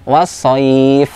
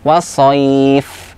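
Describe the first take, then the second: The two takes are said the same way.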